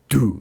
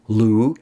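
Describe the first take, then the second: First: The syllable begins with a full D sound. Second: The syllable begins with a light L sound. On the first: "but it's not do either" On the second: "L is too light"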